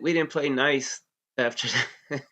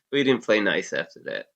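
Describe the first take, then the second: First: Higher and slow, leaning on each word; drawn-out, pointed understatement; slow emphatic. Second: Said in the usual way. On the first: Real, not acted. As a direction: let it land with a knowing weight.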